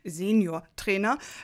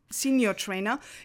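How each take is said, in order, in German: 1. Senior wird wie im Deutschen ausgesprochen. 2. Senior wird wie im Englischen ausgesprochen. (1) "also ganz klassisch gesagt" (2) "Sie sprechen jetzt Englisch aus"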